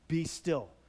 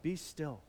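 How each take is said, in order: First: It is said firmly, as a command. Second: It is said gently, as an invitation.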